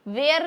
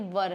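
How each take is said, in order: First: It is said with an 'air' vowel. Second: It is said with a short 'ur' vowel. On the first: The speaker calls it wrong. "ये वेयर नहीं है" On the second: The speaker calls it right. "ये वर है"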